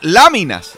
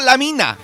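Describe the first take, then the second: First: The stress falls on the first syllable. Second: The stress falls on the second syllable. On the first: Sticker cards from the album are meant. The speaker calls it right. "Son láminas" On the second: A mine or a girl is meant. The speaker calls it wrong. "no la mina"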